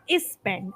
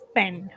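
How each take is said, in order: First: An extra vowel sound comes before the s. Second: The word begins directly with the s sound. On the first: The speaker calls it wrong. "there was a slight e sound that you uh, added before that. It's not is spend" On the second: The speaker calls it right. "It's spend"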